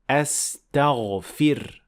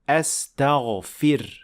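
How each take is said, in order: First: The vowel after the f is 'i'. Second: The same.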